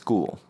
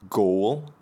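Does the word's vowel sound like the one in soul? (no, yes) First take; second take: no; yes. First: The vowel does not sound like soul. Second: The vowel sounds like the one in soul. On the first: The speaker calls it right. "but it's ghoul" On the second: The speaker calls it wrong. "you might think ol, like soul"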